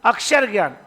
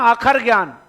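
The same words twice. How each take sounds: First: "अक्षर" with a clear ksh; standard pronunciation. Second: "आखर" with a plain kh, no sh sound; colloquial pronunciation. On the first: Teacher giving students the standard form of the folk word, "अक्षर" with ksh. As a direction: say "अक्षर" formally, short first vowel, k plus sh. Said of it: "आखर ज्ञान मतलब अक्षर ज्ञान". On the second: Teacher quoting what small children's learning is called, colloquial "आखर". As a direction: say "आखर" the folk way, long first vowel. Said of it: "ऐसे बोलते हैं ना". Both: Shown as a demonstration.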